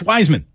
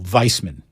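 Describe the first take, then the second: First: The name is said with a plain English pronunciation. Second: The name is said with a German-sounding pronunciation. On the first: The speaker calls it right. "Everyone in the world says Wiseman" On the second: The speaker calls it wrong. "as if you were a German prison guard"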